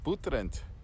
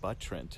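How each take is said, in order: First: The name is said with a Russian accent. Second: The name is said with an English accent. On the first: Locals recognize the place. The speaker calls it right. "add just like a little bit of a Russian accent to it" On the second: Locals do not recognize the place. The speaker calls it wrong. "speaking English, you'd probably pronounce it Buttrent"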